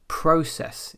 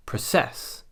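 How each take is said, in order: First: "process" as PRO-cess; front-stressed "process", second syllable lighter; stress on first syllable. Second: "process" as pro-CESS; end-stressed "process", light first syllable; stress on second syllable. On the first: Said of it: "the first syllable instead of the second". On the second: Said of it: "instead of process". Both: Shown as a demonstration.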